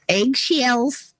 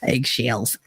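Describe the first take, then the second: First: "Eggshells" said higher in a stray put-on accent; sudden odd accent. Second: Said in the usual way. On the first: Shown as a demonstration. Streamer repeating her own word to chat, in a stray accent. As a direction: slip into an unplanned accent on "Eggshells". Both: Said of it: "I don't know where that accent came from".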